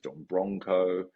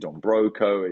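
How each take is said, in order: First: The second word has an N sound before C. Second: The second word has no N sound before C.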